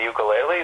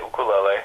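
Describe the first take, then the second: First: "ukulele" opening with a Y glide; anglicized "ukulele", starting like "you"; usual English pronunciation. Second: "ukulele" opening on a pure "oo"; Hawaiian pronunciation. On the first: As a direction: say ukulele as yoo-kuh-LAY-lee. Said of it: "usually say ukulele". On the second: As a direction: say ukulele as oo-koo-LEH-leh. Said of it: "and the people say". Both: Shown as a demonstration.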